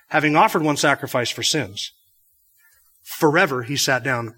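The pause comes right before the word 'forever'. He sits at God's right hand forever. "Or you could read it this way"

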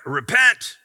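It is said angrily, like a street preacher.

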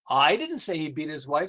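The stress is on "I".

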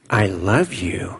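A soft, creepy, smothering motherly voice. Love comes with guilt and disappointment. "It's a Norman Bates God"

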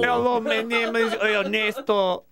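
The voice is pitched fairly high.

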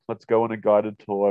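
It is said in a put-on character voice.

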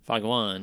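It is said in a Boston accent, dropping the r sounds.

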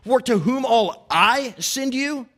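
The word I is stressed.

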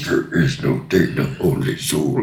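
It is said in a deep, scary voice.

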